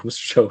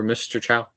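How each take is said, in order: First: "Cho" rhyming with go; "Mister Cho", ending like "show"; corrected pronunciation. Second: "Chow" rhyming with cow; "Mister Chow", ending like "wow"; mistaken pronunciation. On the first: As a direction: say "Cho" with a long O. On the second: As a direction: say "Chow" with an OW vowel. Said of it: "Mister Cho, sorry". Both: Real, not acted.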